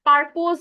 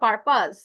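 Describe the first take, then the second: First: The second syllable sounds like 'pose', ending in z. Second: The second syllable sounds like 'pus', ending in s. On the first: The speaker calls it wrong. "পারপোজ বললেন" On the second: The speaker calls it right. "উচ্চারণটা পারপাস"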